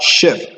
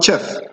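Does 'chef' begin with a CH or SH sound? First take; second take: SH; CH. First: The word begins with an SH sound. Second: The word begins with a CH sound. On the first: The speaker calls it right. "with the sh sound" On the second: The speaker calls it wrong. "So this word is not chef"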